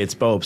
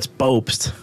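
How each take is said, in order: First: It is said confidently and firmly. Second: It is said timidly and hesitantly. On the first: The speaker feels secure correcting people. The speaker calls it right. "it comes from a, just a place of confidence now" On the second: The speaker feels unsure correcting people. The speaker calls it wrong. "I'm not like, oh"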